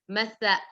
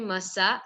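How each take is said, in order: First: The middle consonant is a lisped 'th' sound. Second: The middle consonant is a plain 's' sound. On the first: The speaker calls it right. "it should be pronounced properly" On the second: The speaker calls it wrong. "It should not be masa. Sa is wrong"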